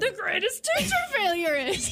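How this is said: It is said in a Yoda voice.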